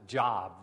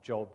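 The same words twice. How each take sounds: First: The vowel sounds like the everyday word 'job'. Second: The vowel is a long 'o', as in 'robe'. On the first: The name is mistaken for an ordinary word. The speaker calls it wrong. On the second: The name refers to the biblical book. The speaker calls it right.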